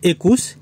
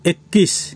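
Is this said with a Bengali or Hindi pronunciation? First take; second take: Bengali; Hindi. First: It has a Bengali pronunciation. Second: It has a Hindi pronunciation. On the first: "বাংলাতে" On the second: "হিন্দিতে"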